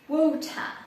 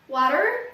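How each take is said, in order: First: The t is pronounced crisply. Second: The t sounds soft, like a d.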